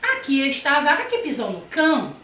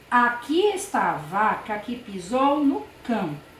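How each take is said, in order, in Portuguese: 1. É dita com uma exclamação animada e surpreendida. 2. É dita como uma afirmação calma e neutra. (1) "na segunda vez eu fiz uma entonação de afirmação, de espanto, de admiração" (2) "Na primeira vez eu fiz uma afirmação"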